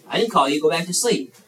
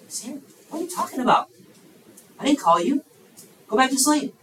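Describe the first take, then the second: First: Said in the usual way. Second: High-pitched, baffled protest; exasperated priest. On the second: Acted. Priest woken twice sends boy to bed, exasperated. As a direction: send him off, voice pitched up in disbelief.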